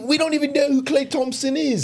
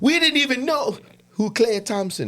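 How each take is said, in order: First: It is spoken in a British-sounding accent. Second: It is spoken in a Jamaican-sounding accent. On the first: The speaker calls it right. "That's a little bit better, right?" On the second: The speaker calls it wrong. "No, that's Jamaican"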